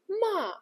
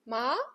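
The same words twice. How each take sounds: First: The pitch falls sharply downward. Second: The pitch rises smoothly upward. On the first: "the fourth tone is sharp, like you are giving the command" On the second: "the second tone rises, like you are asking a question"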